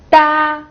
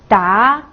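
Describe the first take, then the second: First: The pitch stays high and level. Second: The pitch rises from middle to high.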